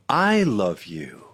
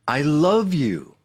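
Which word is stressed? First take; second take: I; love. First: The stress is on "I". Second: The stress is on "love".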